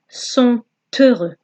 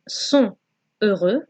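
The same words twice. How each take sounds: First: The t of sont links into heureux. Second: The t of sont is silent before heureux. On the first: The speaker calls it right. "the T from sont has to be pronounced" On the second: The speaker calls it wrong. "instead of saying sont heureux"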